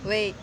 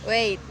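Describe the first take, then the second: The two takes are said the same way.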